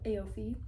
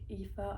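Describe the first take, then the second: First: The name is sounded out from its spelling. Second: The name is said with its Irish pronunciation. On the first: The speaker calls it wrong. "I literally said in my mind Aofi like the whole freaking time" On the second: The speaker calls it right. "it's actually like pronounced like Aoife"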